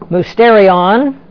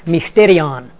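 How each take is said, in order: First: The first vowel sounds like 'oo'. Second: The first vowel sounds like 'i'.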